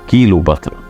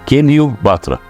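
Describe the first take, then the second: First: The first part is said as kilo. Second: The first part is said as kilyo. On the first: The speaker calls it wrong. "ما اسمهاش كيلو باترا" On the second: The speaker calls it right. "لا هي كيليو باترا"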